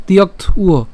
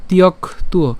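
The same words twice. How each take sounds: First: তিয়ক্ত উয় divided as "tiyokt - uo"; alternative split. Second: তিয়ক তুয় divided as "tiyok - tuo"; simplified split. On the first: Teacher offering another way, তিয়ক্ত then উয়. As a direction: close on t in তিয়ক্ত, then start উয় on the vowel. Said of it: "এভাবে উচ্চারণ করা যায়". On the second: Teacher simplifying for learners, তিয়ক then তুয়. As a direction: begin the second part of তিয়ক তুয় with t. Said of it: "উচ্চারণ করার সুবিধার জন্য লিখছি". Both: Shown as a demonstration.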